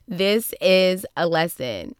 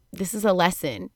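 First: "This is a lesson" slow, each word weighted; slow, spaced-out "This is a lesson" to drive it home; emphatic restatement. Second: Said in the usual way. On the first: Retold or imitated. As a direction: stretch out "This is a lesson" deliberately.

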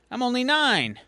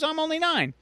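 First: Put-on higher, light kid voice; lightly voiced little boy. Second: Put-on higher still, piping little kid; a nine-year-old pleading at his highest. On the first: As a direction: say it like a hopeful nine-year-old. Kid's first take. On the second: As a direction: push the kid voice up further, more insistent. Kid repeats line, higher.

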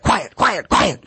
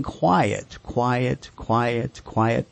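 First: Barking a command. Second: Soft, even "quiet, quiet, quiet, quiet", not barked; gentle repeated "quiet", no edge; calm command. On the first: Retold or imitated. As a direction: bark it back at the dog like an annoyed owner. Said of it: "we start barking right back at the dog". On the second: Shown as a demonstration. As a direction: say it calmly to settle the dog. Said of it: "You're gonna say this calmly".

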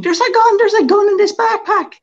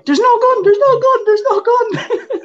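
First: Loud, very high-pitched mock scream; screaming in alarm. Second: High, loud mock panicked yell; screaming at guards. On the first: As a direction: imitate a panicked screener screaming. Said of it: "starts screaming". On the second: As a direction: scream it desperately at running guards. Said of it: "I'm screaming at security guards".

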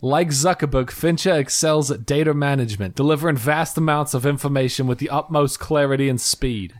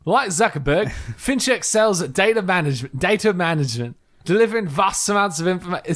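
First: A little bit of Brooklyn New York; slight put-on New York accent. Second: Higher-pitched, shaky-grip Australian accent; put-on Australian, raised in pitch; attempted Australian accent. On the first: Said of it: "a New York thing". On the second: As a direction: try an amateur Australian accent. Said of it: "Can I do it in Australian accent?". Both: Shown as a demonstration.

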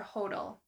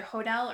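First: Hodel as HOE-dul; stress on first syllable. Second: Hodel as ho-DELL; stress on second syllable. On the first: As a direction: say Hodel with the weight up front, rhyming with yodel. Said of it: "It's either Hodel or Hodel". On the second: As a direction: say Hodel with the weight on the end, ho-DELL. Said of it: "gonna pronounce this wrong". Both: Shown as a demonstration.

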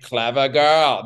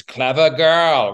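First: Slowed, deadpan hunter line; mock movie quote. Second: Slow, louder, savoring each word; movie quote. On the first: Imagining saying it to the flanking cougar, slow deadpan quote. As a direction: say it coolly as the cat flanks you. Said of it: "be like". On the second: Retold or imitated. Quoting the Jurassic Park hunter, slow relishing line.

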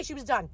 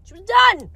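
First: Said in the usual way. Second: DONE pitched high and punched; emphatic DONE. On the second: Real, not acted. Repeats it for dramatic emphasis.

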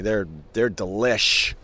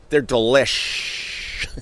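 First: Said in the usual way. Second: DELISH with a very long hissing "sh"; teasing drawn-out delish. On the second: Pretend. Host needling listeners, "delish" with a drawn-out final shhh. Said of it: "I do that just to be a dick".

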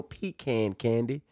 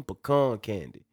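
First: Pecan candy said PEE-can candy. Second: Pecan candy said puh-KAHN candy. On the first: Host mocking the wrong name, pecan as PEE-can. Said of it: "Not pecan". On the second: Host asking for the preferred name, pecan as puh-KAHN. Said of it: "that's how it's pronounced". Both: Shown as a demonstration.

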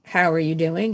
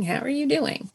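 First: Said in the usual way. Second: "doing" leaned on, sincere and softer; stress on doing. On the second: Shown as a demonstration. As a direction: ask "How are you doing?" really meaning it, weight on "doing". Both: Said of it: "but if you wanna say".

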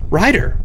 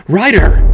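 First: Put-on high, proud child voice saying his own name; a little boy proudly names himself. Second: High, loud cry of his name; a mother's loud alarmed cry; panicked exclamation. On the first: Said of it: "he said with pride". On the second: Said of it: "Lee exclaimed". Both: A narrator's reading.

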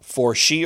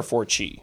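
First: "For she" said with a SH sound; "For she" opening its second syllable on SH; soft SH sound. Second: "for chi" said with a CH sound; "for chi" opening its second syllable on CH; hard CH sound. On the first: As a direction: pronounce "For she" with SH, as in "she". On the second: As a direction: pronounce "for chi" with CH, as in "cheese". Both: Shown as a demonstration. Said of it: "For she or for chi".

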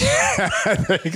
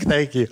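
First: Laughing thanks. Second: Said in the usual way. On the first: Real, not acted. Laughing at the host's joke.

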